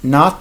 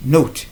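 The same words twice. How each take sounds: First: Not as "naht", open ah; short o as ah. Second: Note with a gliding oh-oo; long o sound. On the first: Teacher contrasting the two sounds of o, open ah. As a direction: say "not" with an unrounded ah. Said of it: "le O a deux sons". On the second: Teacher contrasting the two sounds of o, long o. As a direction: say "note" as "noh-oot". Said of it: "un son qui est O". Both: Shown as a demonstration.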